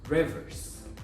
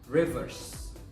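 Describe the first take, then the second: First: The final sound is a hissing s. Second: The final sound is a hissing s.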